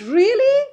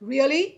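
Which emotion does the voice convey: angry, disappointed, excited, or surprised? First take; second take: surprised; angry. First: It sounds surprised, with the pitch rising. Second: It sounds angry. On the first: "surprise হৈ পেলাই কেনেকৈ ক'ম ৱৰ্ডটো really, কাৰণ মই surprise ... মোৰ টোনটো ৰাইজ হ'ব" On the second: "খঙত কেনেকৈ ক'ম"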